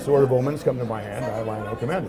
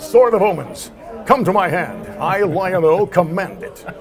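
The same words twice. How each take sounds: First: It is said in a calm, conversational voice. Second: It is said in a loud, forceful, dramatic voice. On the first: This is ordinary talk. "when I talk to you, I say" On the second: This is a heroic performance. "On TV, it comes out"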